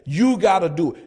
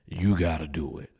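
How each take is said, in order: First: It is said in his normal voice. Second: It is said in a deep voice.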